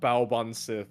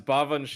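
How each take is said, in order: First: The name ends with a hard 'sith' sound. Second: The name ends with a soft 'shee' sound. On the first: The speaker calls it wrong. "It's not Baoban Sith" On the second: The speaker calls it right. "it's Bavanshi"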